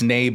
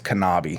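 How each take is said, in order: First: The name starts without a K sound. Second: The name starts with a strong K sound. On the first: The speaker calls it wrong. "Everybody thinks it's Nabe" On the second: The speaker calls it right. "but it's Kanabi. The K, is, the K is strong"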